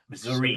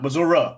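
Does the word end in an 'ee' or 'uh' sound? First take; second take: ee; uh. First: The word ends with an 'ee' sound. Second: The word ends with an 'uh' sound. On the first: The speaker calls it right. "It's a fucking I" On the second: The speaker calls it wrong. "Not Missouri. It's not an A"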